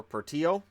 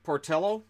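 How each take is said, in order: First: "Portillo" Spanish-style, por-TEE-oh; silent-L pronunciation. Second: "Portillo" with a spoken L, por-TELL-oh; L-sound pronunciation. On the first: Vlogger offering the other reading of a goalie's name, L silent. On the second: Vlogger trying out a goalie's name, L pronounced. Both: Shown as a demonstration. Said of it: "Depends on how it's pronounced".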